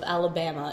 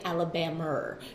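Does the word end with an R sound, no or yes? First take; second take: no; yes. First: The word ends in a plain vowel without R. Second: The word ends with an added R sound.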